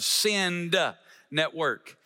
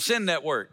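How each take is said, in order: First: It is said slowly with each sound clear. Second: It is said fast, blurring into 'Sin Network'. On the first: The speaker calls it right. "I have to enunciate" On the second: The speaker calls it wrong. "if you say it too fast, it sounds like"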